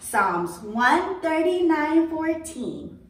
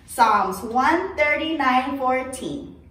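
First: It is said very quietly. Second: It is said at normal loudness.

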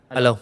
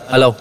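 First: The voice sounds moderately loud. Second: The voice sounds very loud. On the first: "tăng lên 50 nè" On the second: "Ví dụ tăng lên 60 nè. thì nó sẽ rất là lớn"

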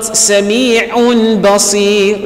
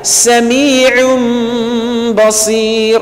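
First: The final n stays a clear n sound. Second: The final n turns into an m sound. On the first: The speaker calls it wrong. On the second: The speaker calls it right. "The same thing is applied"

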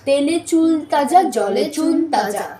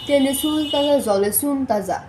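First: The চ sounds are pronounced as ch. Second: The চ sounds are pronounced as s. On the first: The speaker calls it right. "এইভাবে" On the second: The speaker calls it wrong. "এখানে যদি আমরা চয়ের উচ্চারণ স করি তাহলে কী হবে"

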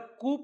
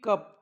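First: The vowel is a long 'oo' sound. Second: The vowel is a short 'uh' sound. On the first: The speaker calls it wrong. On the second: The speaker calls it right.

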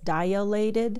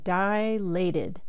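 First: An extra vowel follows the first syllable. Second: No extra vowel follows the first syllable. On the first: The speaker calls it wrong. "A lot of people mispronounce this as dilated, and there is no A after the I" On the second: The speaker calls it right. "Now notice I'm saying dilated"

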